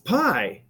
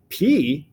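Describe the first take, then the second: First: The vowel sounds like 'eye', as in pie. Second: The vowel sounds like 'ee', as in pea. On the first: This is the American way of saying it. "you Americans pronounce it pi" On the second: This is the Greek way of saying it. "The I sound should be E"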